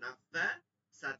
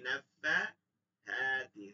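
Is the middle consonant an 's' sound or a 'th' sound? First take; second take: s; th. First: The middle consonant is a plain 's' sound. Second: The middle consonant is a soft 'th' sound. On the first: The speaker calls it wrong. "এই যে সিন হয়ে গেছে" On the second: The speaker calls it right. "থা থা থা হাতি"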